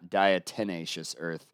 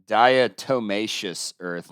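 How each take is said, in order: First: The second syllable sounds like 'ten'. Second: The second syllable sounds like 'toe'. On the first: The speaker calls it wrong. "not diatomaceous earth" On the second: The speaker calls it right. "it's diatomaceous earth"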